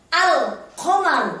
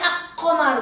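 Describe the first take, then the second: First: The L sound is clearly pronounced before the Q. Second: The L sound is merged into the following Q. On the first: The speaker calls it right. "Al-nya harus jelas" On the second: The speaker calls it wrong. "nggak boleh ak-qamaru"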